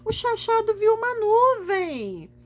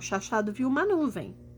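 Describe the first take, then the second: First: It is said happily, with excited emphasis. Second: It is said plainly, with no emphasis.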